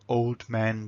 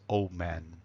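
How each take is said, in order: First: The words are separated and the d is pronounced. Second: The d is dropped and the l links into m. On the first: The speaker calls it wrong. "Separating the words" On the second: The speaker calls it right. "we lose that d, and the l becomes nicely wedded into the mm"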